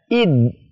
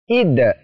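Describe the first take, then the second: First: The final d is held and pressed. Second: The final d is released with a bounce. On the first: The speaker calls it wrong. "tidak boleh membaca id ... ditekan, ditahan" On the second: The speaker calls it right. "cara bacanya seperti apa? ... Seperti itu"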